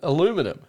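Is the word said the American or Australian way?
American. It is said with the American pronunciation.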